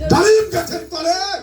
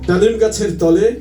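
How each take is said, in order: First: It is recited in a rousing, speech-like manner. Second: It is recited in a gentle, polite manner. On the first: A politician is reciting in his own way. "তিনি তার মতো করে বলল" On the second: A courteous schoolteacher is reciting. "উনি ভদ্র শিক্ষক মানুষ।"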